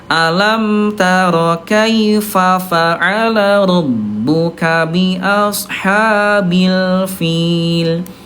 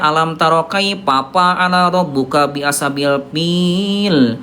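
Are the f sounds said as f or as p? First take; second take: f; p. First: The f sounds are made with lip against teeth. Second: The f sounds are made with both lips, like p. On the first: The speaker calls it right. "bibir dalam bagian bawah disentuhkan dengan ujung gigi seri atas" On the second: The speaker calls it wrong. "itu bunda salah"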